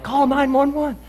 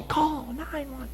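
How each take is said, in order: First: High-pitched urgent yell. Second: High, slow, softer drawn-out call; slow motion. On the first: Retold or imitated. Yelling at a coworker to call nine one one, high and urgent. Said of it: "I yell at some guy". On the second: Pretend. Replaying his yell for help in slow motion, high and softer. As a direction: stretch the yell out as if time has slowed. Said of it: "in slow motion".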